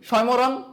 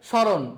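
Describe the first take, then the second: First: The m sound after the first consonant is pronounced. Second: The m sound after the first consonant is silent. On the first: The speaker calls it wrong. "আমরা কিন্তু স্বয়মরণ বলি না" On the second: The speaker calls it right. "আমরা কি বলি স্মরণ"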